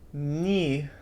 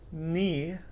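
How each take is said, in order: No difference in how they are said.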